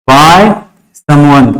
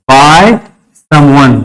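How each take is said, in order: Both takes have the same delivery.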